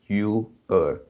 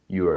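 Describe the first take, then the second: First: It is said as two full separate words. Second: It is said as one short contracted syllable. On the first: "for you it's also the same" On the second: "for you it's also the same"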